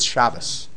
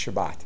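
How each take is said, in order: First: The word ends with an s sound. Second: The word ends with a t sound.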